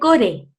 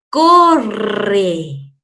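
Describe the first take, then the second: First: The r is a single soft tap. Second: The r is a strong trill. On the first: The speaker calls it wrong. "No dice core. Pues saldría raro" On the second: The speaker calls it right. "la R repetida dos veces va a sonar siempre fuerte"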